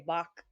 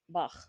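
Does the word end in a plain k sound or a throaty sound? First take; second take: plain k; throaty. First: The word ends in a plain k sound. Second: The word ends in a raspy throat sound. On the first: This is how Americans usually say it. "we say Bach in America" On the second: This is how most of the world says it. "in probably the rest of the world, it's very much like Bach. Has a little bit of a, a throat business to it"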